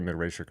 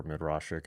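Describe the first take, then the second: First: Midrashic with RAY as middle syllable; first pronunciation option. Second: Midrashic with RAH as middle syllable; second pronunciation option. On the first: Reader unsure of pronunciations offers one option, Midrashic said "mid-RAY-shik". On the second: Reader unsure of pronunciations offers another option, Midrashic said "mid-RAH-shik". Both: Shown as a demonstration. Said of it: "forgive me if I'm getting the pronunciations wrong".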